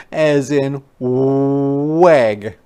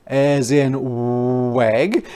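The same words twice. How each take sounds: The two takes are said the same way.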